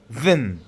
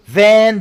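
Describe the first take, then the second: First: The word has a weak, reduced vowel. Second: The word has a full, clear vowel.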